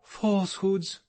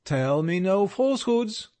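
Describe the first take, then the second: First: "Falsehoods" thrown back higher, indignant and firm; forcible tone. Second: Higher, louder stern warning on "falsehoods"; more sternly. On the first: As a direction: repeat "Falsehoods" back at him, offended. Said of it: "she repeated in a forcible tone". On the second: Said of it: "said he still more sternly". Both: A narrator's reading.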